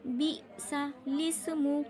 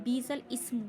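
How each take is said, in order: First: "बिसा लिस्मु" slowly chanted as bi-sa-lismu; correct joining. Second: "बीसल इस्मु" split before ismu, long bee; common misreading. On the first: Teacher answering how to read, slow "बिसा लिस्मु". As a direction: recite "बिसा लिस्मु" with l joined to ismu. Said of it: "पढ़ा क्या जाएगा?". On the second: Teacher showing a common mistake, "बीसल इस्मु". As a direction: say "बीसल इस्मु" as two spoken words. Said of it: "बहुत सारे लोग इसको क्या पढ़ते हैं?". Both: Shown as a demonstration.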